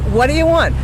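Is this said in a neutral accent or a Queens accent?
Queens. It is said in a Queens accent. "That's what I would say"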